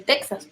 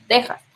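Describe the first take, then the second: First: Texas said as TEK-sas; the common mistaken Texas, with KS for X. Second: Texas said as TEH-has, like Tejas. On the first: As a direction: say Texas with a KS in the middle. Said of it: "Algunos dicen Texas". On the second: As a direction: say Texas with a Spanish J in the middle. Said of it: "pero lo correcto es Texas". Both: Shown as a demonstration.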